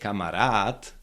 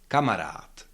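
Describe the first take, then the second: First: The stress is on the last syllable. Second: The stress is on the first syllable. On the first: The speaker calls it wrong. "you cannot say kamarad" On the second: The speaker calls it right. "you cannot stress the last syllable"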